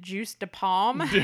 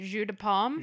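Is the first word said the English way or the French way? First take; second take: English; French. First: The first word sounds like English 'juice'. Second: The first word sounds like French 'jus'. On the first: The speaker calls it wrong. "we pronounced it juice de pomme" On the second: The speaker calls it right. "you pronounce it jus de pomme"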